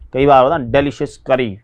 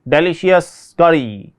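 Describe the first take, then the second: First: Said in the usual way. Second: डिलीशियस करी said slowly, each syllable laid out; slow teacher's model of डिलीशियस करी; slow careful demo. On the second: Shown as a demonstration.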